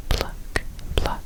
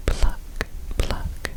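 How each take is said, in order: Both takes have the same delivery.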